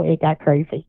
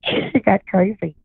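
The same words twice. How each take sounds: First: Said in the usual way. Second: Laughing slowly through it; slow, laughing repeat. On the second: Real, not acted.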